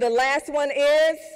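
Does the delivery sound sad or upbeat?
sad. The phrase is said in a flat, sad way. The speaker calls it wrong. "that sounds a little sad"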